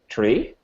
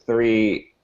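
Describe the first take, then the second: First: The word starts with a hard t sound. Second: The word starts with a soft th sound.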